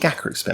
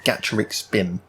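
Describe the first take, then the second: First: The name begins with a hard 'gak' sound. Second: The name begins with a 'gatch' sound. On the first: "I'm going to call him Gakuric Spin" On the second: "supposed to be like gacha, like gacha machines"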